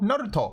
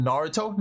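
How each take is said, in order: First: NARUTO with tapped R and pure vowels, falling; Japanese-style Naruto; Japanese pronunciation. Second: NARUTO with English R and "toe" ending, rising; American-style Naruto; English pronunciation. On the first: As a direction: say Naruto the Japanese way, "nah-roo-toh". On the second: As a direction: say Naruto the anglicised way, "NAR-uh-toe". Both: Shown as a demonstration. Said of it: "Again, Naruto".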